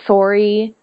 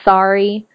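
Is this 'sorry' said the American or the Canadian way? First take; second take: Canadian; American. First: Sorry is said with a Canadian pronunciation. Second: Sorry is said with an American pronunciation. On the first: "I pronounce things differently than American people. Like sorry instead of" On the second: "instead of sorry"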